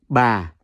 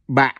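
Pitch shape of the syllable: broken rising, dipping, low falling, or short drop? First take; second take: low falling; short drop. First: The pitch starts low and falls gently. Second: The pitch drops low and cuts off abruptly. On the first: "the second one is Yau Huyền. See the second Huyền. So that's Ba" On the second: "The one with the dot is pronounced as Ba"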